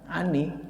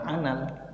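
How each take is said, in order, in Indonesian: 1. An disambung dengan vokal i. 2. An disambung dengan vokal a. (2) "bukan anal"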